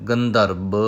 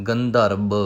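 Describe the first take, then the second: Both takes have the same delivery.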